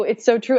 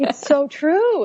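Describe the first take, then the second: First: Said in the usual way. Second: Slow drawn-out "It's so true"; emphatic agreement. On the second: Real, not acted. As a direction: lean into "true" slowly and high.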